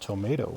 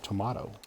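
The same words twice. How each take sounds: First: It is said the American way. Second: It is said a non-American way. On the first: "us Americans say" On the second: "instead of"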